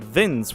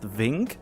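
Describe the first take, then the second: First: The name ends with an S sound. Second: The name ends with a K sound. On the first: This is how the owner says the name. The speaker calls it right. "I always pronounce it Vince" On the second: This is how others misread the name. The speaker calls it wrong. "initially think that Vince, V I N C, is actually pronounced Vink"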